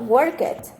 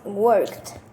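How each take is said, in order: First: The ending is not pronounced like a t. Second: The ending is pronounced like a t sound. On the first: The speaker calls it wrong. "not worked. It's incorrect" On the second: The speaker calls it right. "the correct sound is worked"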